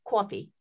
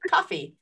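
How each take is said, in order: First: Said in the usual way. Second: "Coffee" as "ahfee" with an open ah, teasingly copied; mimicking her accent. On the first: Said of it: "It's coffee". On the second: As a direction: echo her "cahfee" accent to tease her. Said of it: "Why are you saying it like that?".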